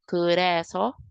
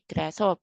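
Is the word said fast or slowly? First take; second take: slowly; fast. First: The word is said slowly and carefully. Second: The word is said quickly and smoothly. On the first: The speaker calls it wrong. "instead of" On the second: The speaker calls it right. "we have to pronounce it a little bit fast, faster"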